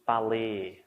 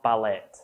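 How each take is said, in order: First: The final T is silent. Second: The final T is pronounced. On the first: The speaker calls it right. "the E and the T actually doesn't sound like it in this one" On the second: The speaker calls it wrong. "It's not ballet"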